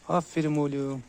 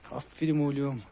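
Both takes have the same delivery.

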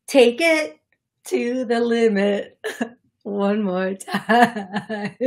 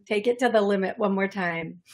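First: Slow sung line, breaking into laughter; singing. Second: Said in the usual way. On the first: Retold or imitated. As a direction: sing it drawn out, amused. Sings the song she heard.

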